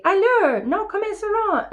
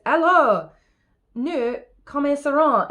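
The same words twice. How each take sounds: First: High, mocking French echo; squeaky copycat mockery; mimicking the tutor. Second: French phrase, raised and insistent; tutor's testy opening in French; lightly voiced exasperated tutor calling the lesson to begin; angry tutor. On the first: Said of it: "And I say". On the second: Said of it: "Here's what makes Philip angry".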